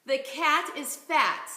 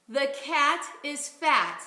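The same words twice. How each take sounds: First: "The cat is fat" said slowly and clearly; slow model phrase. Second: "The cat is fat" repeated even slower. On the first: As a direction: set it out slowly to copy. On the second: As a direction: echo it slowly, evenly. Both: Shown as a demonstration. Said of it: "Let's try this one".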